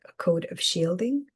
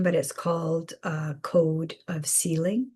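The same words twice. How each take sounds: First: "shielding" said carefully, sh sound and a clear d; a deliberate fix to "shielding" after the slip; the correction: "shielding" with a crisp sh and d; corrected word. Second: "sealing" said by mistake, with a plain s and no d; a misspoken "sealing" where "shielding" was meant; slip of the tongue. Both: Real, not acted. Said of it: "Sorry, I misspoke".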